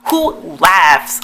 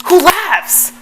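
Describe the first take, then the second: First: Said in the usual way. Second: Much higher, exclaimed disbelief; incredulous outburst. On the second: Real, not acted. Vlogger appalled that she laughed before kissing, incredulous cry. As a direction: repeat it with the pitch thrown right up.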